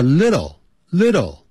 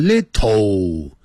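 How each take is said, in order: First: "little" with a flapped t and dark l, lidl; correct little. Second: "little" with a hard t, like lit-toe; wrong little. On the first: 老师示范美式little. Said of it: "叫little，little". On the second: 老师示范中国式错误读法. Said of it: "千万不要念成little". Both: Shown as a demonstration.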